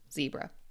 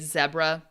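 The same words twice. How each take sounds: First: It is said in an American accent. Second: It is said in a British accent. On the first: "but in America we say zebra" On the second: "British, Australian, other other English dialects will say zebra"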